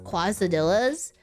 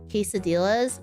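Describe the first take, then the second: First: The first syllable sounds like 'kwah'. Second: The first syllable sounds like 'kay'. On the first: The speaker calls it wrong. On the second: The speaker calls it right.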